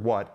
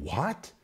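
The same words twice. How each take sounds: First: Said in the usual way. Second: "What?" as a questioning exclamation, rising at the end; exclamatory WHAT. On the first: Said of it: "it begins with the word". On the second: Shown as a demonstration. Preacher shows how the verse opens, exclamatory rising "What?". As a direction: exclaim "What?" with a sharp upward swing. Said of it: "it is an exclamation".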